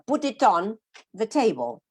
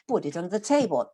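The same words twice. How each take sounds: First: The phrase is split into badly grouped pieces. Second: The phrase flows as one meaningful chunk. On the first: The speaker calls it wrong. "I cannot say" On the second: The speaker calls it right. "No, put it on the table like that"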